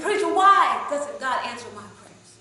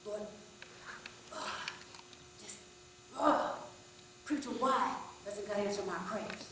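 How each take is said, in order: First: Slow, much louder and higher angry yell; furious shout. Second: Exasperated, fired-up plea to the preacher; angry outburst. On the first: Man shouts the question again from the back, slow furious yell. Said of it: "And he shouted again". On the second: Angry man shouts his question at the preacher. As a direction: let it burst out angry and upset. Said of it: "asked the preacher at the top of his lungs". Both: Retold or imitated.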